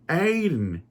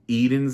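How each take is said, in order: First: The name begins with an 'ay' sound. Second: The name begins with an 'ee' sound. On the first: The speaker calls it wrong. "one of the characters is pronouncing the name Aiden" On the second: The speaker calls it right. "I thought Eden's name was"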